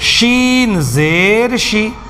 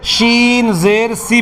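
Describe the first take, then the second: First: The final syllable starts with an sh sound. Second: The final syllable starts with a plain s sound. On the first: The speaker calls it right. "शी कहनी है" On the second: The speaker calls it wrong. "शीन ज़ेर शी की जगह क्या कह देते हैं"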